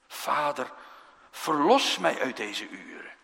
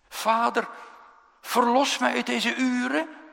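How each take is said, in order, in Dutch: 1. De stem daalt aan het eind, zoals bij een mededeling. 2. De stem stijgt aan het eind, zoals bij een vraag.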